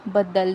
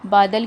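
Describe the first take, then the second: First: The first vowel is short with a doubled d. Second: The first vowel is long with a single d. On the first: This is the Khari Boli form. "दा पे तशदीद लग गई है" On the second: This is the standard form. "बादल की जगह"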